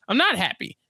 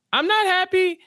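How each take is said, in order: First: Mildly displeased quote, pitched a bit up; understated mock complaint; retold displeasure. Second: Much higher, hammed-up complaint; squeaky-high retold grumble; mock displeasure. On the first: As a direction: make the complaint plainly, first time. Paul's complaint to Jessica retold. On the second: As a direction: repeat it way up high in mock protest. Paul's complaint repeated, escalating.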